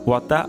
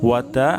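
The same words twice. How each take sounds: The two takes are said the same way.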